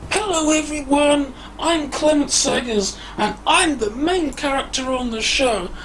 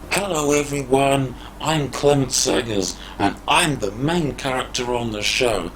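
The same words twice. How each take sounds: First: The voice is processed to sound like a woman. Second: The voice is processed to sound very low. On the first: "I've changed my voice into a woman" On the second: "let's see what that sounds like through the low voice"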